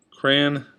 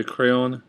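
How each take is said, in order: First: Said in the usual way. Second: "crayon" in two syllables, "cray-on"; others' pronunciation. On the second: Shown as a demonstration. Vlogger showing how some say it, two-syllable pronunciation. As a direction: sound both syllables of "crayon". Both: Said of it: "Some people say crayon".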